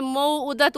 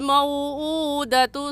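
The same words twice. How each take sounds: First: The hamza sound is said short, not stretched. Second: The hamza sound is stretched out long. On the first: The speaker calls it wrong. "इसे मौऊदतु नहीं कहेंगे" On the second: The speaker calls it right. "हमज़ा को खींच कर पढ़ेंगे"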